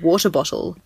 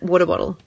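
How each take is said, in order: First: Each word is pronounced carefully and fully. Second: The words are blurred quickly into one word. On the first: "if I just say" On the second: "which I like to blur into one word as fast as I can"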